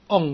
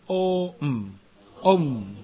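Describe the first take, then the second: First: It is one short nasal hum. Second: It glides from an open o into m. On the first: The speaker calls it wrong. "不可以读嗡哦，不可以读这样啊" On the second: The speaker calls it right. "真正的发音是"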